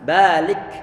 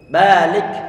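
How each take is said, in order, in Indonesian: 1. Huruf k terakhir melepaskan hembusan napas yang ringan. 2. Huruf k terakhir melepaskan hembusan napas yang ringan.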